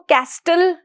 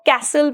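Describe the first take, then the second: First: A T sound is pronounced before the L. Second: No T sound is pronounced before the L. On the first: The speaker calls it wrong. "हम इसको कैस्टल नहीं पढ़ेंगे" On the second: The speaker calls it right. "हम इसको कैसल पढ़ेंगे"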